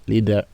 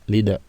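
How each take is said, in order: The two takes are said the same way.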